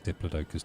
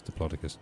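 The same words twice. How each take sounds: First: Diplodocus as DIP-luh-DOH-kus; low, quiet Diplodocus, DIP-luh-DOH-kus; first of two pronunciations. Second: Diplodocus as dih-PLOD-uh-kus; low, quiet Diplodocus, short o in PLOD; alternative pronunciation. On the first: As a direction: say Diplodocus with a long DOH and the stress on it. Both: Shown as a demonstration. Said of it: "it's an old joke".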